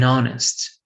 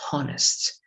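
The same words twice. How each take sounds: First: The word begins with a vowel, no h sound. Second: The word begins with an audible h sound. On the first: The speaker calls it right. "it's o" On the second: The speaker calls it wrong. "it's not honest"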